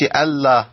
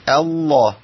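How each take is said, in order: First: The L is pronounced light and thin. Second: The L is pronounced heavy and thick. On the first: The speaker calls it wrong. "ما قلتش الله, ما ينفعش" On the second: The speaker calls it right. "أبدأ بتفخيم على طول اللام"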